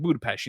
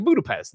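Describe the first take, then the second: First: "Budapest" ending in a soft "pesht" sound. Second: Said in the usual way. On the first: Retold or imitated. She corrects him on the name, "Budapest" with an SH. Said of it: "trying to correct that by saying Budapest". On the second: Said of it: "pronounced it Budapest".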